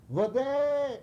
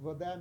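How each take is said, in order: First: High, drawn-out shouted call; imitating the chief's desperate scream for water. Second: Said in the usual way. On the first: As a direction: cry it out like a yell from high up. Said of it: "and he screams". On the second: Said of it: "And water means water".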